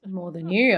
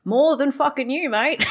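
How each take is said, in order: First: More than you, said evenly; a level comeback, YOU lightly lifted; plain retort. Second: MORE than fucking you, pushed out higher and louder; louder mock retort. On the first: Pretend. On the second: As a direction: turn up the comeback, heavy on MORE. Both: Streamer retorts at a game character.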